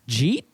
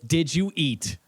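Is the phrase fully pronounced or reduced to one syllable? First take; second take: reduced; full. First: The phrase is squashed into one syllable. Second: The phrase is said fully in three syllables.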